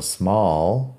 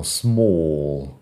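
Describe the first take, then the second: First: "small" with an open American AH vowel; "small" in an American accent, unrounded vowel. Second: "small" with a long, rounded British OO-like vowel; slow imitation of British "small"; exaggerated British small. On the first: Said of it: "small en inglés americano". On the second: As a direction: mimic British "small" as a drawn-out SMOOL. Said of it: "En inglés británico". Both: Shown as a demonstration.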